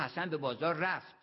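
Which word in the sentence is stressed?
رفت. The stress falls on رفت. There is no doubt that he went. "یعنی تردید نکنید"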